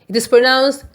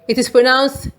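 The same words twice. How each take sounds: No difference in how they are said.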